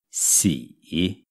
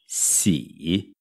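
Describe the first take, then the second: The two takes are said the same way.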